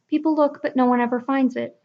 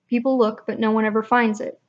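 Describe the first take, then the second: First: The voice is natural, higher and relaxed. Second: The voice is pushed lower and tense.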